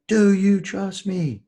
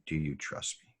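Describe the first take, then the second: First: Very high, loud, slow shout; retold full yell. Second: Soft, hushed repeat of the question; quiet recollection. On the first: Gunnery sergeant yelling again at the hesitating recruit, slow loud shout. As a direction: scream it at him slowly, word by word. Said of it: "he yelled at me again". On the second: Retold or imitated. Speaker quietly recalling the sergeant's question to the host, soft and hushed. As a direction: say it softly, looking back on the moment.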